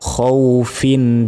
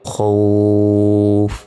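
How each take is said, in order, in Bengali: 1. স্বরধ্বনিটি হ্রস্ব, আর শেষের বর্ণটি উচ্চারণ করা হয়। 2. স্বরধ্বনিটি টেনে পড়া হয়, আর শব্দটি হঠাৎ শেষ হয়ে যায়। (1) "এখানে টেনে পড়িনি" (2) "তখন উচ্চারণটা হবে খৌফ, এভাবে"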